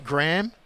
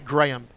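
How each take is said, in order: First: The name is said the American way. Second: The name is said the Australian way. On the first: "You say Graham" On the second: "we say Graham"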